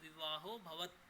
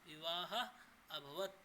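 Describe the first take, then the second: First: The two words are run together as one. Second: The two words are said separately, unjoined. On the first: "अगर पूरा एक साथ बोले तो" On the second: "अगर इसका संधि विच्छेद करें तो"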